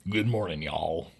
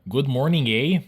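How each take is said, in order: First: Mock-American statement, sinking low on "y'all"; soft, dropped mock-American "y'all"; American declaration. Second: High, loud mock-Canadian question; mock-Canadian lilt, raised on "eh". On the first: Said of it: "Americans declare the morning to be good". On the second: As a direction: ask it as a caricature Canadian. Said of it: "Compared to the Canadian language version". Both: Shown as a demonstration.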